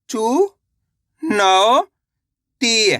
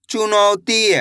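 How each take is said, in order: First: चुनौती stretched very slowly, syllable by syllable; teacher spelling चुनौती aloud; sounded out slowly. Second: Said in the usual way. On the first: Shown as a demonstration. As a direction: drag चुनौती out piece by piece. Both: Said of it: "तो मिलके बन जाएगा".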